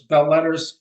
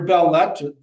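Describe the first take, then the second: First: The term is pronounced the English way. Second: The term is pronounced the French way.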